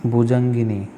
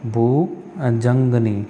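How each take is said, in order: First: भुजंगिनी with a short i after ga; the other form. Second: भुजंगनी drawn out very slowly, bu-jang-nee; slow careful spelling. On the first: Teacher sets the second form against the first for students. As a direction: say भुजंगिनी, gi-ni distinct. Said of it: "भुजंगिनी mistake". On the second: Teacher slowly repeats the correct word for students. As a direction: stretch भुजंगनी syllable by syllable. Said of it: "भुजंगनी होता है". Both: Shown as a demonstration.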